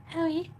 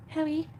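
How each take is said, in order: Both takes have the same delivery.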